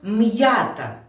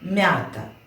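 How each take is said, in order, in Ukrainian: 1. Тверде м, а потім окремий звук «й». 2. М'яке м зливається з голосним. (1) "Слово «м'ята»" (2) "скажу це слово без апострофу"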